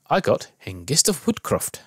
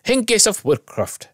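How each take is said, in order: First: Said in the usual way. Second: Put-on high, slow shout in a Scottish accent; pitched-up Scottish group cheer. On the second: A narrator's reading. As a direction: call it out like a Scottish crowd, drawn out. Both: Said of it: "everyone shouts in Scottish accent".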